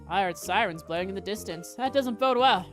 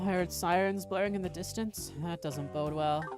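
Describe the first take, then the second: First: The voice sounds alert, not tired. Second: The voice sounds tired and weary. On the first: The speaker calls it wrong. "I did his voice wrong" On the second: The speaker calls it right. "I always voice him as tired"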